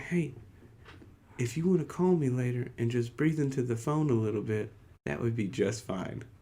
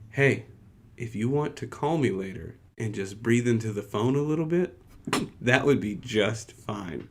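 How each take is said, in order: First: It is said very quietly. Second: It is said a little louder.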